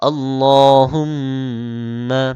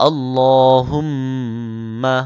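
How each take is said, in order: Both takes have the same delivery.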